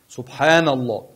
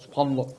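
First: It is said slowly, with a clear n. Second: It is said fast, the n swallowed.

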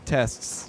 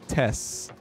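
First: The t before the final s is clearly pronounced. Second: The t before the final s is dropped. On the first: The speaker calls it right. "You're not saying tests" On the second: The speaker calls it wrong. "You're saying tests"

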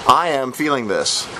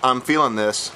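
First: "I am" is said as two full words. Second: "I am" is contracted to "I'm". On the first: The speaker calls it right. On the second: The speaker calls it wrong. "Not I'm feeling this"

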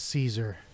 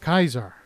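First: The name begins with an s sound. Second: The name begins with a k sound. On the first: This is the common modern pronunciation. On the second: This is the old-style pronunciation.

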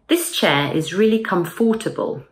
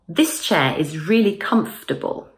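First: The middle 'or' sound in 'comfortable' is pronounced. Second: The middle 'or' sound in 'comfortable' is dropped. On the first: The speaker calls it wrong. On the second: The speaker calls it right.

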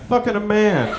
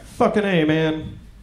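First: It runs together without a pause. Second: There is a pause before 'man'.

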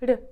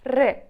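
First: The r is very light and barely sounded. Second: The r is strong and rolled, like a growl. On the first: "Легенький звук зовсім" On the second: "звук буде вимовлятися сильніше, так трішки з таким ричанням"

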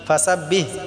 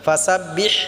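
First: The final h is a plain, light breath. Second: The final h is pressed from the throat. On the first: The speaker calls it wrong. "ফাসাব্বিহ এরকমভাবে বললে হবে না।" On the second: The speaker calls it right. "এটা আমরা সাফ সাফ করে উচ্চারণ করব।"

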